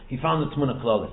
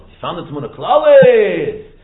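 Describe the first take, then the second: First: Said in the usual way. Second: "Klalis" loud and drawn out; exultant emphasis. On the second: Shown as a demonstration. Teacher revealing what the Kohen Gadol found, exultant emphasis. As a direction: cry out "Klalis", stretched long and loud. Builds up the discovery by repetition.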